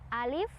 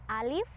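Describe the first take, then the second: First: The vowel is kept short, one beat. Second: The same.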